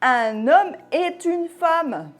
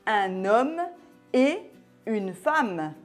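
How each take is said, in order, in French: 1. Un son T se lie au mot suivant. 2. Aucun son T ne se lie au mot suivant. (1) "Si on faisait la liaison" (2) "Après la conjonction et"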